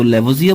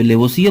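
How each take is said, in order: First: लेवोजियर said the American way, zee-er ending; लेवोजियर pronounced the American way, ending zier; American pronunciation. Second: लेवोसिए pronounced the British way, ending sie; British pronunciation. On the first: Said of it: "American English की बात करें तो लेवोजियर बोलते हैं". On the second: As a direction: say लेवोसिए as lay-vo-see-ay, no r at the end. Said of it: "British English की बात करें तो वहां पे लेवोसिए बोलते हैं". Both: Shown as a demonstration.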